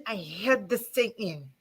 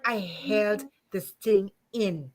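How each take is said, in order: First: Quiet and held back, softer; a quiet, restrained confession; emotional, quiet. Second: Slow, heavy and emotional. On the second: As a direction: drag it out, choked with feeling. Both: Real, not acted. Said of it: "I'm getting emotional".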